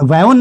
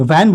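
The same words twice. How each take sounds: First: वैन stretched into two sounds, "vai-on"; वैन said as a drawn "vai-on"; wrong pronunciation. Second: वैन as one syllable, "van"; वैन, simply "van", no glide; correct pronunciation. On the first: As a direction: break the vowel of वैन into "vai-on". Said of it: "वैन नहीं बोलेंगे". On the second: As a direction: say वैन with a single open vowel. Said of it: "वैन बोलेंगे". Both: Shown as a demonstration.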